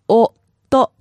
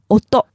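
First: It is said slowly, syllable by syllable. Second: It is said fast at normal speed.

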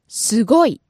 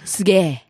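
First: The word is said in full with go. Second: The go is contracted into a held ge. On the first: "The pitch accent here is on the go" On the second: "The go gets contracted into... げ"

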